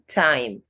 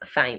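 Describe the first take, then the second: First: The word begins with a plain T sound. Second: The word begins with a TH sound. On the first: The speaker calls it right. "T H has the T sound" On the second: The speaker calls it wrong.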